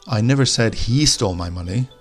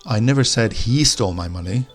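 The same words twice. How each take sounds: First: The stress falls on the word he. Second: The stress falls on the word he.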